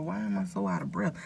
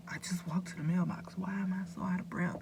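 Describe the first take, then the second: First: Said in the usual way. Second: Whispered to herself, baffled; hushed, wondering whisper; puzzled whisper. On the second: Retold or imitated. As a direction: breathe the question out like a private worry. Retelling her own puzzled thoughts.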